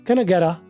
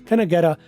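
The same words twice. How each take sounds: The two takes are said the same way.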